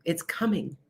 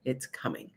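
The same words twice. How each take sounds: First: Said in the usual way. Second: "It's coming" dropped lower and much softer; ominous hush. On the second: Shown as a demonstration. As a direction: let "It's coming" sink into a hushed, ominous warning. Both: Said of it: "so I'm telling you".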